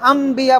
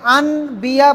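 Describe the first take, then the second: First: An m sound is pronounced before the b. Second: An n sound is pronounced before the b. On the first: The speaker calls it right. "নাকি আম বিয়া বলতে হবে" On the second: The speaker calls it wrong. "এখানে কি আন বিয়া বলবেন"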